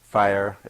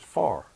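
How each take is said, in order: First: The vowel is a standard two-part glide. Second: The vowel is a flat single sound.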